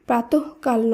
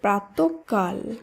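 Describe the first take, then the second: First: The middle consonant is pronounced once, not doubled. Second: The middle consonant is pronounced doubled, held longer. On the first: The speaker calls it wrong. "প্রাতঃকাল নয়" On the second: The speaker calls it right. "শব্দটি শুদ্ধ উচ্চারণ হবে"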